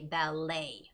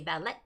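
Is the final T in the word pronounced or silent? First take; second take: silent; pronounced. First: The final T sound is silent. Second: The final T sound is pronounced. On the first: The speaker calls it right. "you do not make that T sound. It's a silent T" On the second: The speaker calls it wrong. "you do not say ballet"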